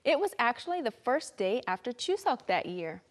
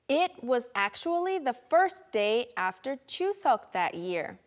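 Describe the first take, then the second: First: The sentence is said at a faster pace. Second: The sentence is said at a slower pace.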